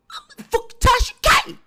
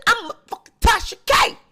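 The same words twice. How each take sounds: First: I'm a fucking Tasha K, much higher and loud; shrill boast. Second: Proud boast. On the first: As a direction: squeal the boast way up high. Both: Retold or imitated. Same boast said twice.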